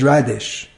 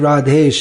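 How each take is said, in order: First: The name ends with an 'ish' sound. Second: The name ends with an 'esh' sound. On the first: The speaker calls it wrong. "that's Muli. It's the English name for Muli" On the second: The speaker calls it right. "it's just as easy to say as Radhesh as Radish"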